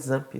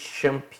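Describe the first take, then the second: First: The word begins with a "z" sound. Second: The word begins with a "ch" sound. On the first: The speaker calls it right. "o nome dele correto é Xampp. Esse X aí tem um som de Z" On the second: The speaker calls it wrong. "que a galera chama de Champ"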